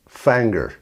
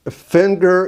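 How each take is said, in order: First: The first vowel is the 'a' of 'fan'. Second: The first vowel is the short 'i' of 'fin'.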